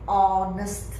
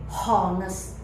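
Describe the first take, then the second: First: The word starts with a silent h. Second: The word starts with a sounded h. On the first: The speaker calls it right. "the H is silent. You don't pronounce H" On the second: The speaker calls it wrong. "not honest, no"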